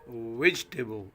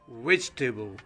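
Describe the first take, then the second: Both takes have the same delivery.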